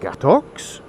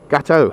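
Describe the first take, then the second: First: The word ends with a clear x sound. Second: The word ends on a vowel, no x. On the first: The speaker calls it wrong. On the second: The speaker calls it right.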